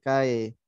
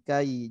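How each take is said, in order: First: The vowel glides toward an e sound. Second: The vowel glides toward an i sound. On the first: The speaker calls it wrong. "Jangan kae" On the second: The speaker calls it right. "Ke arah vokal i"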